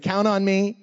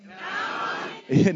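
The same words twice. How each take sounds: First: Shouted prompt. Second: Slow, drawn-out group shout; the whole side yells it back; crowd shout. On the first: Shown as a demonstration. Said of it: "Let me hear it". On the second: Real, not acted. Kids shouting back to the pastor, drawn-out shout. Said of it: "that was hardly fair".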